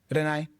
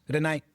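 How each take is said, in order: The two takes are said the same way.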